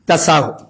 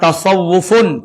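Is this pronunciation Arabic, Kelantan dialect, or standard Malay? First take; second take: Kelantan; Arabic. First: It is pronounced in a Kelantan dialect accent. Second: It is pronounced the Arabic way, with a final ending. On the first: "bahasa Kelantan dia jadi tasawuf" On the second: "Sebutan yang betulnya ialah tasawufun"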